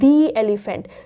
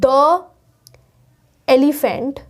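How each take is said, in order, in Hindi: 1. 'The' को लंबे 'thee' स्वर के साथ बोला जाता है। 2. 'The' को छोटे 'thuh' स्वर के साथ बोला जाता है। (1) "हम यहां पे बोलेंगे दी एलिफेंट" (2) "क्या यहां पे द एलिफेंट आएगा? नहीं"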